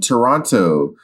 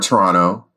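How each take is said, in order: First: The second T is clearly pronounced. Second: The second T is dropped.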